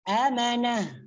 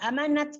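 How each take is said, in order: First: The word ends with an h sound. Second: The word ends with a t sound. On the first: The speaker calls it right. "kalau kita mau wakaf amanah" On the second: The speaker calls it wrong. "amanatan dibaca am, uh, amanat ke"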